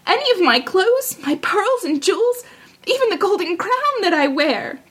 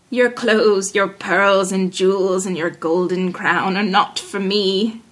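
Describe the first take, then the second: First: High, pleading princess voice; high-voiced princess bargaining; eager princess. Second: Low, slow frog voice; low-pitched, unhurried talking frog; dismissive frog. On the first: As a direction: offer it all eagerly, pitched high. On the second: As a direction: turn the offer down in a low, measured tone. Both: A narrator's reading.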